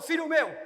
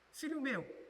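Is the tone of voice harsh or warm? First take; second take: harsh; warm. First: It is said in a stern, harsh tone. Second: It is said in a gentle, warm tone. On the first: A strict authority is laying down the law. The speaker calls it wrong. "Não é aquele pai durão" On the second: A caring parent is lovingly instructing a child. The speaker calls it right. "Ela é uma abordagem de instrução acolhedora"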